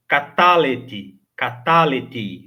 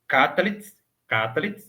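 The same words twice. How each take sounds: First: Catalete slow, final I drawn out; stretched catalete, ka-TA-le-tii; longer flowing I. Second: Catalet quick, last vowel barely sounded; very brief vowel. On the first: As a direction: let the I at the end of catalete flow longer. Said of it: "O I precisa fluir um pouco mais longo". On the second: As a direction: catalet with a tiny sheva before the T, tune rising. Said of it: "uma vogal muito breve pronunciada". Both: Shown as a demonstration.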